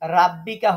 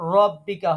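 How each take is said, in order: First: The r sound is light and thin. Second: The r sound is heavy and full. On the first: The speaker calls it wrong. "রাব্বিকা হবে না" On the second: The speaker calls it right. "র পোর হবে"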